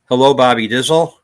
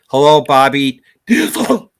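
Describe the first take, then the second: First: It is spoken normally on an outgoing breath. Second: 'Dizzle' is spoken on an incoming breath.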